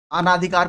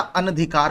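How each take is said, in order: First: अनाधिकार said with a long "aa" after the first न, "anaadhikaar"; अनाधिकार stretched as "anaa-dhikaar", the wrong form. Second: अनधिकार said short, "an-dhikaar", with no long vowel after न; अनधिकार kept short as "anadhikaar"; correct form said. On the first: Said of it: "अनाधिकार कुछ नहीं होता". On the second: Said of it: "अनधिकार होता है". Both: Shown as a demonstration.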